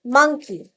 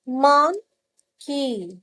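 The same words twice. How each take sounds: First: Said in the usual way. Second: "मंकी" stretched slowly, syllable by syllable; drawn out syllables. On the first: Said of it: "जैसे ये देखिए". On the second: Shown as a demonstration. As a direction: say "मंकी" very slowly, letting each syllable be heard. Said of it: "दो word से मिलके एक word बना है". ("मंकी" को धीरे-धीरे खींचकर, हर सिलेबल अलग)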